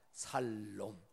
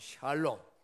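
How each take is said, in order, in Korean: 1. 이 단어는 평범한 's' 소리로 시작합니다. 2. 이 단어는 'sh' 소리로 시작합니다. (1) "누구는 또 이걸 갖다가 살롬" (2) "원래 발음으로 하면 샬롬"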